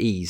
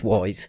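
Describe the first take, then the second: First: The name sounds like 'ease', with no w. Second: The name sounds like 'wise', starting with w. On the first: "you pronounce it ease, and that is the correct way to say it" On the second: "I look at it and I think it's Wise"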